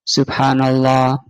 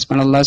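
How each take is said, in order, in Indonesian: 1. Diucapkan pelan dan jelas. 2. Diucapkan cepat dan tidak jelas. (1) "Kalau dibaca dengan benar, dengan khusyuk" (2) "kan nggak jelas jadinya. Ingin segera selesai"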